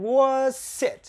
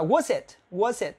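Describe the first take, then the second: First: "was it" turned up in pitch at the end; teacher lifts the tune on "was it"; rising tune. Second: Said in the usual way. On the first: Shown as a demonstration. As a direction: bend "was it" upward like a question. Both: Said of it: "uốn lên".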